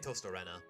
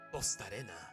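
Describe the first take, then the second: First: It is said in an English accent. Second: It is said in a Spanish accent. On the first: "So I say Tostarena" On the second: "if I'm using my Spanish accent"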